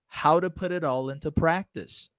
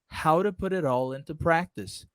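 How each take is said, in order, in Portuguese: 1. As palavras se juntam, com sons de t parecidos com r. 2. As palavras se juntam, com sons de t parecidos com r.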